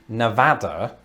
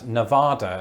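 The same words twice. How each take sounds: First: It is said the local American way. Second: It is said the British way. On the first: The speaker calls it right. "I've tried to change the way I say it to Nevada" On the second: The speaker calls it wrong. "I used to pronounce this as a British person as Nevada"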